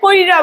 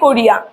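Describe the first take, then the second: First: The i sound comes before the r. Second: The i sound comes after the r. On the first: The vowel has moved ahead in later speech. "অনেক অনেক লোকরা কি বলে, কইরা বলে, এটা চলে গেল অপিনিহিতি" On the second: This is the original older form. "প্রথমে বলে লোকজন বলে কোরিয়া"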